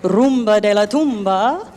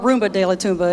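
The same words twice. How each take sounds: First: It is said with a Spanish-style pronunciation. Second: It is said with a Texan American accent.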